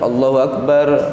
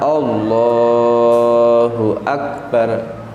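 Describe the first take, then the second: First: The 'la' sound in Allahu is cut short. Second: The 'la' sound in Allahu is held long. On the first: The speaker calls it wrong. "nah ini pendek, hukumnya tidak sah" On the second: The speaker calls it right. "Apa yang panjang di situ? Huruf lam"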